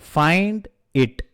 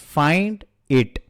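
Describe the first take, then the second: The two takes are said the same way.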